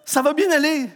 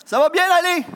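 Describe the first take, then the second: First: Ironic echo in his head. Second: High, loud mocking echo of the slogan; sarcastic sing-song of a broken promise; mock reassurance. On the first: Retold or imitated. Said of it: "j'entendais dans ma tête". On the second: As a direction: parrot the empty promise, higher and louder.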